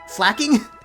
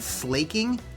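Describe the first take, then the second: First: The first vowel is short, like 'slack'. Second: The first vowel is long, like 'slake'. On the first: The speaker calls it right. "And slacking is slack... slacking?" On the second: The speaker calls it wrong. "I've heard them pronounced Slakoff and Slaking"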